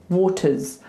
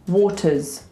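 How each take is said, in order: No difference in how they are said.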